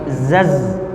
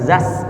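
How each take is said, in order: First: The final consonant is a buzzing z sound. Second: The final consonant is a hissing s sound. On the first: The speaker calls it right. "tapi zaz" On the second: The speaker calls it wrong. "bukan zas ya"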